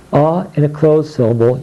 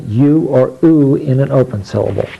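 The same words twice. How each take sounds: First: A here said "uh", as in up; short "uh" for the vowel written A; short U sound. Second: U said "you", then "oo"; long U sounds. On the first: Teacher demonstrating closed syllables, A voiced as short "uh". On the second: Teacher demonstrating open syllables, U as "you" or "oo". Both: Shown as a demonstration.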